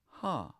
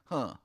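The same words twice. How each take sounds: First: It sounds curious and interested. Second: It sounds scornful and dismissive.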